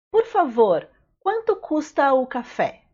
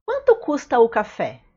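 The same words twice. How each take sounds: First: Said in the usual way. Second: Quick, run-together question; fast natural speed. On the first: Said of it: "teacher repeats phrase for learners". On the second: Shown as a demonstration. Teacher to learners, fast natural-speed question. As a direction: toss it off fast like a native. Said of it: "teacher says phrase at natural speed".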